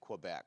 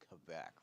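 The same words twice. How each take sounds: First: It is said with an American pronunciation. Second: It is said with a French pronunciation. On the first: "because we're Americans, we can pronounce it however we want" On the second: "If you speak French, you're supposed to say Quebec"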